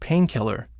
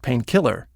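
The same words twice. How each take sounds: First: The stress is on the first part, pain. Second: The stress is on the second part, kill. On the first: It names a kind of medicine. The speaker calls it right. "we think anesthetic" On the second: It calls up the literal meaning of killing. The speaker calls it wrong. "it brings up the strength and almost unrelated meaning of kill"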